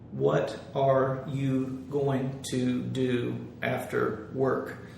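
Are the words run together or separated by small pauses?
separated. Each word is separated by a small gap.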